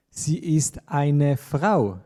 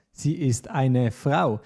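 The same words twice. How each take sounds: The two takes are said the same way.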